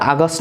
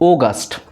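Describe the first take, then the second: First: The first vowel is a short open 'ah'. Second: The first vowel is a longer rounded 'aw'. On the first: The speaker calls it wrong. "এটা আগস্ট না" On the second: The speaker calls it right. "ও এর উচ্চারণটা একটু লম্বা করে পড়তে হবে"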